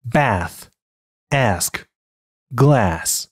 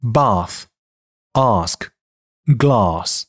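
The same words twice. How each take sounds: First: American bath, ask, glass with front "a" as in cat; American English demo of bath, ask, glass; American pronunciation. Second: British bath, ask, glass with long back "ah"; British English demo of bath, ask, glass; British pronunciation. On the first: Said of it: "美音". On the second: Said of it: "英音". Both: Shown as a demonstration.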